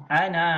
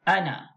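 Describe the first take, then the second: First: Ana with the a wrongly drawn out; wrong long vowel. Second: Ana with a short final a; short vowel. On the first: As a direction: stretch Ana to show the mistake. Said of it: "itu salah". (Ana dibaca panjang, salah) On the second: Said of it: "Pendek saja". (ana dibaca pendek) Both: Shown as a demonstration.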